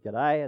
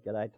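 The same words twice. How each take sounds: First: Breezy rising G'day in passing; casual greeting. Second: "G'day" said lower and softer, a short mumbled reply; funeral director's reply. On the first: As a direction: toss off "G'day" with an upward lilt. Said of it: "I just said". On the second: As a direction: drop "G'day" low and quiet like a neighbour answering. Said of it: "and he said". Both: Retold or imitated.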